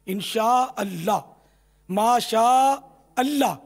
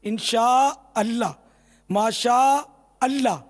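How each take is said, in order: Both takes have the same delivery.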